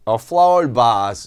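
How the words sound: Vase is said with a British accent. "이게 아주 대표적인 영국 발음으로"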